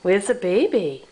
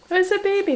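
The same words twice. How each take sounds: First: Said in the usual way. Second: Much higher, playful peekaboo call; sing-song baby talk. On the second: Pretend. Parent playing peekaboo with Miranda, high sing-song. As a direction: lift it way up like cooing at a baby.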